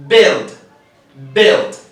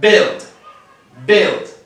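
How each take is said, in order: The two takes are said the same way.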